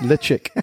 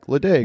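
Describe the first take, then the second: First: The middle consonant is a ch sound. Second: The middle consonant is a plain d sound. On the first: The speaker calls it right. "But it's pronounced le chick" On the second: The speaker calls it wrong. "So I'm like"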